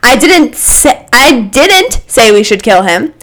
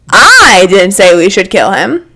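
First: The stress falls on the word 'didn't'. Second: The stress falls on the word 'I'.

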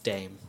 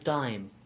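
First: The vowel sounds like the one in 'name'. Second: The vowel sounds like the one in 'time'. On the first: This is the name used in the rest of the world. "in the rest of the world, it's pronounced Dame" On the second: This is the older name used in one country. "As Dime. And pronounced that way too"

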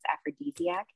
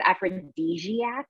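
First: The middle consonant sounds like an s. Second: The middle consonant sounds like a z. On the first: The speaker calls it right. "but it's aphrodisiac" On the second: The speaker calls it wrong. "I pronounced it wrong one of the first few times that I said aphrodisiac with like a z"

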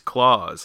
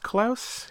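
First: The name sounds like Santa Claus. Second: The name does not sound like Santa Claus. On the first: The speaker calls it wrong. "like Santa Claus" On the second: The speaker calls it right. "it is pronounced Klaus"

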